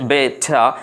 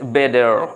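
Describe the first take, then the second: First: A crisp t and no final r. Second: A d-like t and a final r. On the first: "ব্রিটিশরা বলছে" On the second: "আমেরিকানরা বলছে"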